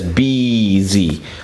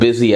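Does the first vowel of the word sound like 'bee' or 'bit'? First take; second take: bee; bit. First: The first vowel is long, as in 'bee'. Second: The first vowel is short, as in 'bit'. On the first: "as in B E E Z E E" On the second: "the word busy"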